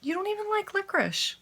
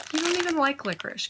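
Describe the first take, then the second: First: Squeaky voice for the dog; very high pet-talk voice. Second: Higher, scolding a pet; sing-song scold to the dog; high pet-talk voice. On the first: Talking to the dog again. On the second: Talking to the dog. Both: Real, not acted.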